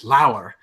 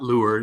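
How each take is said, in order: First: The syllable rhymes with power. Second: The syllable rhymes with poor. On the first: The speaker calls it right. "it's Lauer" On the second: The speaker calls it wrong. "I always thought it was Aberlour, but it's not lure"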